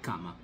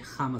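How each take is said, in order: First: The word begins with a hard k sound. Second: The word begins with a breathy kh sound. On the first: The speaker calls it wrong. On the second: The speaker calls it right.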